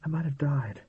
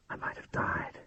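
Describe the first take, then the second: First: Said in the usual way. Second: Soft, unvoiced whisper to herself; whispered thought. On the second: A narrator's reading. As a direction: breathe the words as a private thought. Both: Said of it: "she was thinking".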